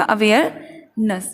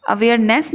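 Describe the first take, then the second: First: अवेयरनेस slowly, ending "nuhs"; teacher's slow split model; corrected pronunciation. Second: अवेयरनेस with r sounded and "ness"; the mistaken reading with a clear r; wrong way shown. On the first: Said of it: "हमें बोलना होगा". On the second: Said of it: "नहीं बोलना है". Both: Shown as a demonstration.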